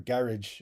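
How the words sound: Garage is said with a British pronunciation.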